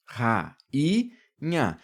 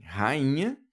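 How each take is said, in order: First: "ra, i, nha" in three separate syllables. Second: Said in the usual way. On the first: Shown as a demonstration. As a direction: pause after "ra", keep "i" apart from "nha". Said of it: "o N H".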